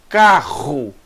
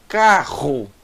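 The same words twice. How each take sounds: No difference in how they are said.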